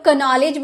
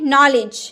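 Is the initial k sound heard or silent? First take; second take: heard; silent. First: The k sound is pronounced before the n. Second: The word starts directly with the n sound. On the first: The speaker calls it wrong. "क्या हम लोग कनॉलेज बोलेंगे? नहीं ना" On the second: The speaker calls it right. "यहाँ तो के silent है"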